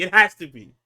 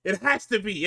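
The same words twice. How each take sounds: First: Much louder, pressing the point home; emphatic insistence. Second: Said in the usual way. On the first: Real, not acted. Host insisting to co-host, loud emphatic repeat.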